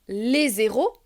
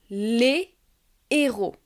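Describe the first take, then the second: First: A z sound links les onto héros. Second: No z sound; the words stay separate. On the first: The speaker calls it wrong. "je ne peux pas faire de liaison au pluriel. Par exemple, je ne peux pas dire" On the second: The speaker calls it right.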